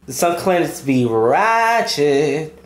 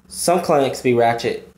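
First: "ratchet" held long on a swooping vowel for emphasis; drawn-out RATCHET. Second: Said in the usual way. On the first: Real, not acted. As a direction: stretch "ratchet" out long and slow. Repeats phrase, drawing out last word.

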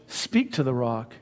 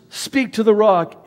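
First: Said in the usual way. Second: Much higher and louder divine command; commanding God. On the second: Retold or imitated. God telling Moses to speak to the rock, loud and high. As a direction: proclaim it as God's order. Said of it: "And so God says".

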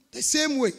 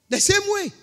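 First: Said in the usual way. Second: The same way, lifted much higher in a pleading tone; pleading echo. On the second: Acted. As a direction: echo the plea up high, like a beggar. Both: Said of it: "also pleaded with him".

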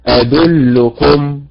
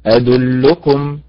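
First: "أدلكم" drawn out slowly with the stress wrongly on the last syllable. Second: "أدلكم" slow, the stress on the first syllable أد; correct stress. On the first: Teacher imitates a student's wrong stress on أدلكم. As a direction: drag out "أدلكم" with the stress falling on the end. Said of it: "الذي يخطئ فيها يقولها هكذا". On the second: Teacher gives students the right stress of أدلكم. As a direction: stretch "أدلكم" putting the weight on أد. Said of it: "وإنما". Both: Shown as a demonstration.

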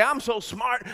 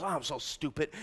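First: Said in the usual way. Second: Low, quiet self-deprecating aside; soft, sunken mock groaning; mock self-putdown. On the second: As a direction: imitate someone sheepishly running themselves down. Imitates someone putting themselves down.

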